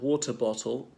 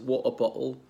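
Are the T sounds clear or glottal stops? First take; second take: clear; glottal stops. First: The T sounds are clearly pronounced. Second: The T sounds are replaced by glottal stops.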